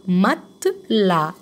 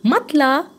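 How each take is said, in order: First: مات لا slowly broken into two drawn-out parts, no S; silent S, syllable by syllable. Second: مات لا run together as one higher-pitched word, no S; silent S, joined up. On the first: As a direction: stretch مات, then لا, leaving the S silent. (مات لا مقطع مقطع ببطء، من غير سين) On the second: (مات لا كلمة واحدة بصوت أعلى، من غير سين) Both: Shown as a demonstration. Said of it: "الأس مش بنطقها".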